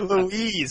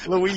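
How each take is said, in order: First: The name is said slowly and drawn out. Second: The name is said quickly and clipped. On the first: "It's like I need to stretch it out" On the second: "I say it fast"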